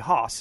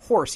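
First: Said in a thick Boston accent. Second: Said in a plain, non-Boston accent. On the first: "he'd say hoss" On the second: "when he would say horse"

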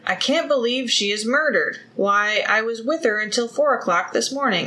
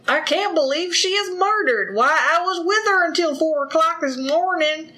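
First: It is read in a plain, neutral voice. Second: It is read in a Southern country accent. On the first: "It was really hard for me not to read that in like a country bumpkin accent" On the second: "but Tennessee accent, though"

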